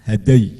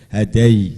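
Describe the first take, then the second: First: The ending is short and quick. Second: The ending is drawn out and forceful. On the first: The speaker calls it right. "hampir seperti pepat tapi cepat" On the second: The speaker calls it wrong.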